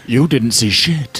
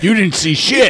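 First: It is said imitating Obi-Wan Kenobi's voice. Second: It is said in a normal voice.

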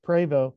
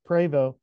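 First: The name is said with French pronunciation. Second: The name is said with French pronunciation.

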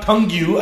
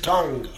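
First: The word ends with an added 'you' sound. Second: The word ends with no added 'you' sound. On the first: The speaker calls it wrong. "it's not tongue you. I just told you, you don't pronounce the U and the E" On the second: The speaker calls it right. "it's tongue"

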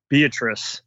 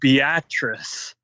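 First: The name is said as it looks written. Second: The name is said in the local way. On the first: This is how a newcomer would guess it. "Just looking at it, it looks like Beatrice" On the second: This is how people there actually say it. "they keep saying it, Beatrice. That's, I guess, how it's properly said in Nebraska"

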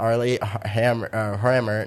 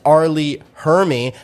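First: The surname ends in an 'er' sound. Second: The surname ends in an 'ee' sound. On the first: The speaker calls it wrong. "not Arlie Hammer" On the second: The speaker calls it right. "it's Arlie Hermy"

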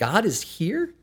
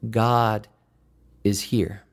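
First: It is said as a doubtful question. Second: It is said as a comforting statement.

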